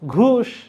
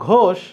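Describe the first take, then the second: First: The vowel is said as a close u. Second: The vowel is said as a rounded o. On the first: This is how the Mymensingh region says it. "ও এর উচ্চারণ ওরা করে উ" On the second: This is the standard pronunciation. "তুমি যদি বলো ঘোষ"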